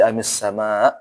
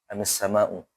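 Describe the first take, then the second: First: The phrase ends abruptly on a consonant. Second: The phrase ends with a final u vowel. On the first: The reader stops at this word. "Kalau berhenti" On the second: The reading continues without stopping. "Itu kan aslinya amis sama'u ya"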